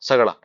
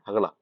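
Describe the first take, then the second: First: The word begins with an s sound. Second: The word begins with an h sound. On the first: This is the common Rajasthani form. "जैसे राजस्थान में एक word होता है" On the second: This is the Bikaner regional form. "सगड़ा नहीं बोलते, हगड़ा बोलते हैं"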